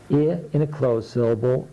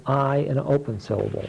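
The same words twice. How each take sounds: First: "I" said as the vowel in sit; short I. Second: "I" said like the letter's name; long I. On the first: Teacher models the closed syllable sound, short "I". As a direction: say "I" short, as in itch. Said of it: "put the short vowels in here". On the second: Teacher models the open syllable sound, long "I". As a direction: say "I" long, as in time. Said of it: "the sound O in an open syllable". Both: Shown as a demonstration.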